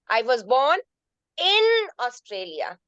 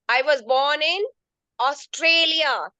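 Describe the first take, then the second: First: The stress falls on the word in. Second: The stress falls on the word Australia. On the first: It was inside the country, not outside it. "That means in Australia, not outside Australia" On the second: It was this country, not another one. "not in New Zealand"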